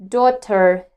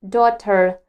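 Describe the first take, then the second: Both takes have the same delivery.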